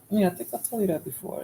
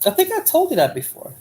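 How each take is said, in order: First: Said in the usual way. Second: Pitched well higher and pointed; pointed high reminder; raised pitch. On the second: Real, not acted. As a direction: say it up high, teasing the chat. Repeats the line to the chat.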